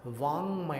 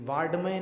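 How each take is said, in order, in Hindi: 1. 'm' से पहले एक नासिक्य 'ng' ध्वनि आती है। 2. 'm' से पहले 'd' ध्वनि आती है। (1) "वाङ्मय है" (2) "ये वाड्मय नहीं पढ़ना"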